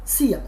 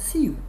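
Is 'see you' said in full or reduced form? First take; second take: reduced; full. First: The words blend together, ending in a short 'ya'. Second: Both words are said fully and separately. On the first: "आज के बाद आप लोग सी यू को सिया बोलेंगे" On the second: "हम एक शब्द यूज करते हैं सी यू"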